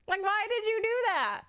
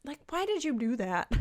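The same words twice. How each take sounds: First: Why did you do that, much higher and incredulous; mock disbelief, high. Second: Said in the usual way. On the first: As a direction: squeak it in disbelief. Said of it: "repeated much higher". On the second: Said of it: "repeated, higher".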